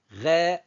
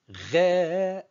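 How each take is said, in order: First: The vowel is held for a normal length. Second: The vowel is held longer than usual. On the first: "normalement, ça se prononce" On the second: "Je fais exprès de prolonger un peu plus que la normale"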